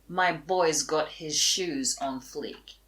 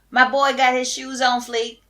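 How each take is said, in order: First: It is said in a normal, plain voice. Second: It is said in a put-on slangy voice.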